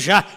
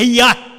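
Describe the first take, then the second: First: The name begins with a zh sound. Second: The name begins with a y sound. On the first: This is the Portuguese form of the name. The speaker calls it wrong. "Já é porque é no português. ... Não é Já" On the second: This is the original form of the name. The speaker calls it right. "Mas você leva para o original é Iá"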